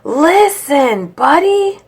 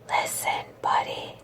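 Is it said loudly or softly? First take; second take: loudly; softly. First: It is yelled loudly. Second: It is whispered softly.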